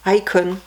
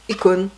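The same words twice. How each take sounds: First: English pronunciation of the word, opening like "eye"; British accent. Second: Said in the usual way. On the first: Shown as a demonstration. French vlogger demonstrating the album title in a British accent. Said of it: "l'accent, euh, bien british". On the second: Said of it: "si on prononçait avec l'accent".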